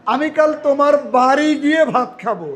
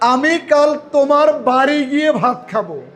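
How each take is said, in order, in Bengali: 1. বাড়ি শব্দে জোর দেওয়া হয়েছে। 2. বাড়ি শব্দে জোর দেওয়া হয়েছে।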